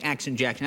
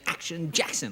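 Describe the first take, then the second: First: The name is said in a plain speaking voice. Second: The name is said in a big announcer voice. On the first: The speaker calls it wrong. "I can't even say Action Jackson" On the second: The speaker calls it right. "I have to say Action Jackson, like it's in the air"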